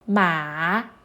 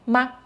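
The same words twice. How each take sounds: First: The pitch dips low then rises. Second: The syllable is short and light, without set pitch. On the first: It means horse. "Ma means horse" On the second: It marks a question. "Ma is a question particle"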